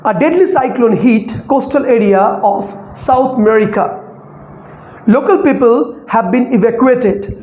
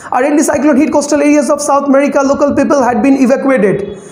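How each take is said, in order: First: Relaxed news reading with clear pauses between phrases; scanning with breath breaks. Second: Rushed, run-on news reading; reading without scanning. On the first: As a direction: take a breath between each chunk of the news line. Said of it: "we have to take the breath". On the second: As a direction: race through the script without pausing for breath. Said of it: "without scanning, so how would I read?". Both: Shown as a demonstration.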